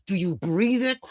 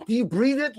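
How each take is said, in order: First: Understated intense ask; mock intense question. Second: Much higher, pressing repeat of "Do you breathe it?"; heightened mock-zealous repeat; escalating intensity. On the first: First take of repeated question. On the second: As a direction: push the repeat up, more urgent. Second, heightened take.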